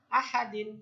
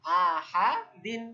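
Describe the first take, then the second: First: Said in the usual way. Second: আহাদিন drawn out slowly and louder; teacher modelling আহাদিন slowly for students; slow model word. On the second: Shown as a demonstration. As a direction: stretch আহাদিন syllable by syllable. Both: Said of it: "কি উচ্চারণ?".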